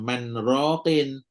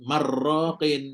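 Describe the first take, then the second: First: The n is kept separate before the r. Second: The n merges fully into the r.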